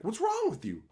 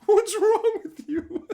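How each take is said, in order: First: High, incredulous mock question; mock disbelief. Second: Very high, louder, slow, cracking up; laughing disbelief. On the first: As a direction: imitate baffled headshakers. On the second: Retold or imitated. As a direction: laugh through the question. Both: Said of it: "shaking their heads like".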